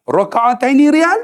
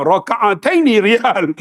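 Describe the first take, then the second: First: Unsure question. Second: Slow, deliberate, sure of himself; mock confidence, slow; confident. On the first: Retold or imitated. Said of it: "dengan confident". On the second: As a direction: spell out Raka'ataini riyal slowly as if it is right. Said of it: "Dengan confidentnya".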